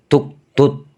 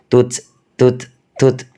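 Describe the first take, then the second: First: The final t is released with a bouncing stop. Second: The final t is released with a puff of air. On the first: The speaker calls it wrong. "Nggak boleh tuk tut. Dibaca kol-kolan nggak boleh" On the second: The speaker calls it right. "harus mengeluarkan angin"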